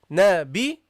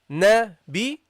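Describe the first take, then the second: The two takes are said the same way.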